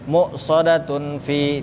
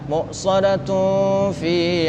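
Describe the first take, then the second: First: The n before 'fi' is pronounced clearly. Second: The n before 'fi' is nasally hidden. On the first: The speaker calls it wrong. "jangan muqsadatun fi, tidak" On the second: The speaker calls it right. "tunnya di sini harus kita baca ikhfa"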